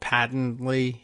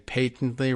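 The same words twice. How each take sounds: First: The word is said the American way. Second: The word is said the British way. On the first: "rather than patently here in the U S" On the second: "a Britishism to say patently"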